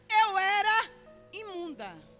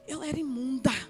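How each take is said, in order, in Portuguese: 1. É dita firmemente e com força. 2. É dita de forma trêmula, com gagueira. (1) "não falou com essa expressão assim que eu estou falando" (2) "Quem treme e teme, não fala assim com força não. Não, não, não, gagueja"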